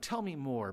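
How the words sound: It falls at the end, like a command.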